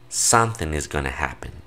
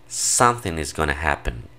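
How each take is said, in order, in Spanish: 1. 'Going to' se reduce a gonna. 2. 'Going to' se reduce a gonna.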